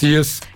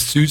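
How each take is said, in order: First: The vowel is an unrounded ie with r. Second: The vowel is a rounded standard ü. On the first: "sondern es ist Siers" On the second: "der hat nie süß sagen"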